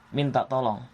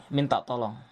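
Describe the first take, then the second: No difference in how they are said.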